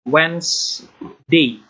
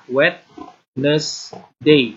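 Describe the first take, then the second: First: The word is said with two syllables. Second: The word is said with three syllables. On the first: The speaker calls it right. "Kamu hanya perlu dua suku kata saja" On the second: The speaker calls it wrong. "Kalau Wednesday itu kan tiga suku kata. ... Nah, itu salah"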